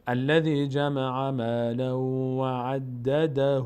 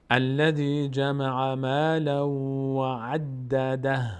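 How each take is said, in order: First: Slow chanted Quran verse, عدده ending in a long "hu"; continuing recitation. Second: Slow chanted Quran verse, عدده ending on a breathy "dah"; stopping recitation. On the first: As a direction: chant it drawn out, carrying عدده on into "dahuu". (تلاوت آهسته، «عدده» با ضمهٔ کشیده) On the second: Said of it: "اگر ادامه بدیم چی؟". (تلاوت آهسته با وقف روی «عدده») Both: Shown as a demonstration.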